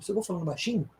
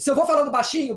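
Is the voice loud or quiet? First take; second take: quiet; loud. First: It is spoken quietly, with low volume. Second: It is spoken loudly, with high volume. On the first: "eu vou diminuindo a amplitude" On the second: "eu vou aumentando a amplitude"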